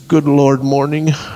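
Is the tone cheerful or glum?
glum. It sounds glum and weary.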